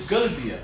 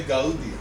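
First: "Guldia" with first vowels squashed into one; wrong vowel run. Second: "Gaudia" with A and U both sounded; correct vowels. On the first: Teacher showing what you cannot say, "Guldia" with merged vowels. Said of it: "you cannot say". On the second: Teacher showing what you do say, "Gaudia" with full vowels. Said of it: "You say Gaudia". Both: Shown as a demonstration.

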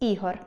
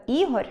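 First: Said in the usual way. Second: «Ігор» ending in a palatalised R; softened final R. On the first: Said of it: "замість". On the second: Shown as a demonstration. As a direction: soften the last sound of «Ігор» to R'. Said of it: "Пом'якшення нем'якого звука".

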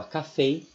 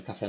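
First: Café said ka-FAY, last syllable stressed, closed e; English café. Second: Said in the usual way. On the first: Shown as a demonstration. Teacher shows how café is spoken. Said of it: "mas fala café". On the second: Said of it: "escreve café normal".

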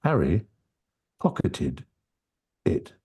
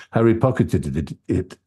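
First: Each word set apart by a pause; Harry, pause, pocketed, pause, it; words separated. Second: Harry pocketed it stumbling on the ending; an extra "it" slips out; tongue-tripped. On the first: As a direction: say it slowly, one word at a time. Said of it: "if I separate them very easily". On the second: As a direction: trip over the "it" after "pocketed". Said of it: "as soon as I tried to say". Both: Shown as a demonstration.

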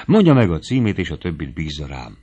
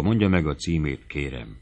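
First: Rapturous urging. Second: Gently entreating, dropping low and soft on the last word; a mild, soft-voiced plea; soft pleading. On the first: Infatuated hunter urges the girl for her address, rapturously. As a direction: urge it eagerly, then sink to a murmur. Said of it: "suttogta vadász mámorosan". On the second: Suitor begs the girl for her address, softly pleading. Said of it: "Rimánkodó lágy hangon ismételgette". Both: A narrator's reading.

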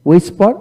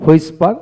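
First: হুইসপার said "wispar". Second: হুইসপার said "hwispar"; sounded H. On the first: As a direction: begin হুইসপার on a plain w. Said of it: "হুইসপারটা বেশি বলা হয়". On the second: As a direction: begin হুইসপার with h before the w. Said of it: "ব্রিটিশে হ উচ্চারিত হয়". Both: Shown as a demonstration.

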